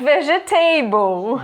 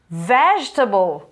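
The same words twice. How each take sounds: First: The ending is said as a full 'table'. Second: The ending is reduced, not a full 'table'. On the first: The speaker calls it wrong. "Not vegetable" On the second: The speaker calls it right. "a gente não diz table"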